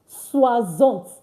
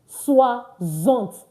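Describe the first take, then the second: The two takes are said the same way.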